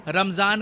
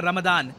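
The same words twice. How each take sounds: First: "रमज़ान" said with a z sound; subcontinental pronunciation. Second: "रमदान" said with a d sound. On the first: Explainer showing viewers the Indian spelling, subcontinental pronunciation. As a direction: say "रमज़ान" with a buzzing z. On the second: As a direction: say "रमदान" with d in place of z. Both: Shown as a demonstration. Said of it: "pronunciation का फ़र्क है".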